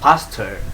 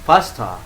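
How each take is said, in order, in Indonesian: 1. Aksen Amerika, huruf R di akhir terdengar jelas. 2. Aksen Inggris, huruf R di akhir tidak dibunyikan. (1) "American people says" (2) "Orang Inggris bilangnya"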